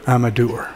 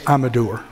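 No difference in how they are said.

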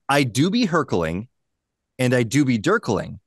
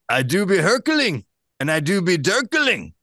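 First: It is said in the speaker's ordinary accent. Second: It is said in a put-on Scottish accent. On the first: "Thank you for not using an accent" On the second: "I guess it's Shrek. I could do Shrek"

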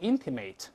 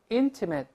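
First: The last syllable is pronounced like 'ate'. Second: The last syllable is pronounced like 'it'. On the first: The speaker calls it wrong. "不要读成ate，不要读intimate，不对啊" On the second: The speaker calls it right. "形容词的ate 一边变成it"

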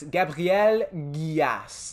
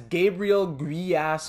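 First: The name is said with French pronunciation. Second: The name is said with English pronunciation. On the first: "That's how you'd pronounce it if he's from France" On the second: "however you want to pronounce that"

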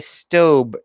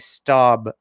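First: The word rhymes with stove. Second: The word does not rhyme with stove. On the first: This is how the maker says the name. The speaker calls it right. "they pronounce it stobe, like stove" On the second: This is how most people say the name. The speaker calls it wrong. "everybody pronounces it staub"

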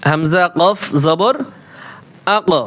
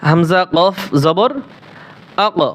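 First: The final consonant is released with an echoing bounce. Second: The final consonant is released with an echoing bounce.

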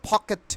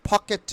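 No difference in how they are said.

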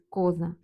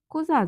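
First: The stress is on the first syllable. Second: The stress is on the last syllable. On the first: This is the standard form. The speaker calls it right. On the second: This is a northern dialect form. The speaker calls it wrong.

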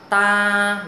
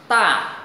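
First: The pitch stays level, neither high nor low. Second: The syllable is said sharply with strong emphasis. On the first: "đọc ngang ngang ha. Ta là không lên giọng cũng không xuống thấp" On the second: "thanh 4 là đọc nhấn mạnh giống như dấu sắc"

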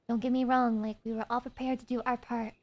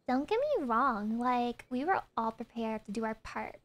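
First: It is read in a plain voice. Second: It is read in a valley girl voice.

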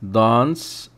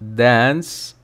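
First: It is said in a British accent. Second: It is said in an American accent. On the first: "British accent" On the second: "American accent"

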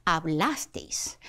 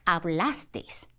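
Both takes have the same delivery.

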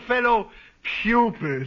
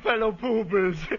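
First: The word is said clearly as 'pupils'. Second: The word is said like 'poopers'. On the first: The speaker calls it right. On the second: The speaker calls it wrong.

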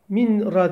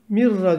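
First: The n is pronounced separately before the r. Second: The n merges fully into a doubled r. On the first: The speaker calls it wrong. "min ra demiyoruz" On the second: The speaker calls it right. "Mirra diyoruz"

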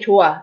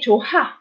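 First: The h sound in the middle is almost silent. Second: The h sound in the middle is clearly pronounced. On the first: The speaker calls it right. "I just say 좋아. It's almost silent" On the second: The speaker calls it wrong. "So I didn't say 좋아"

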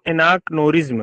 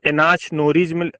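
First: The word is said in its usual way. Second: The word is sounded out as it is spelled. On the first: "एनाक्नोरिज्म नहीं है" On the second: "spelling याद करने के लिए मैं उसको एनाचनोरिज्म बोलता हूँ"

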